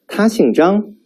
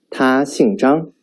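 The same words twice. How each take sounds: First: 他姓张 said as a question, pitch rising high at 张; questioning rise on 他姓张; rising question tune. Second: 他姓张 said as a statement, slow, falling at 张; falling statement tune. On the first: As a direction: lift 张 up sharply like asking. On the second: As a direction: let 张 drop flatly, stating a fact. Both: Shown as a demonstration. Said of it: "listen to me carefully and distinguish the intonations".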